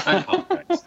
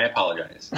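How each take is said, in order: First: Much higher, squeaky sorry; high squeaky apology. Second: Said in the usual way. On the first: Shown as a demonstration.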